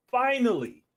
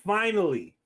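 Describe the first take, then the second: First: Finally pitched up and louder than before; a bigger, higher finally. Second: Finally said louder each time; building emphasis. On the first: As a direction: lift finally higher for the payoff. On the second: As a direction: pause and lean into finally. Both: Acted. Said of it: "building comic pause".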